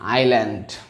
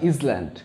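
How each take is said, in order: First: The s is silent, starting with 'eye'. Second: The s sound is pronounced in the middle. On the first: The speaker calls it right. "That is আইল্যান্ড" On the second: The speaker calls it wrong. "That is not ইসল্যান্ড"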